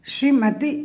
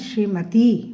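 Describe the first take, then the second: First: The 'i' vowel is short. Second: The 'i' vowel is long. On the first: The speaker calls it wrong. "नहीं" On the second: The speaker calls it right. "बड़ी ई की मात्रा है इसमें"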